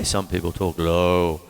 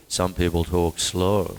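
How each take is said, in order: First: Low, slowed demo. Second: Slow, lower delivery. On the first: Teacher showing a low talker, voice lower and slower. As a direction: drop deep and slow on low. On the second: Teacher showing how slow talkers sound, slowed and lower. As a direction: drag out the word slow. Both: Shown as a demonstration.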